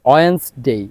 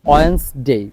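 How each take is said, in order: No difference in how they are said.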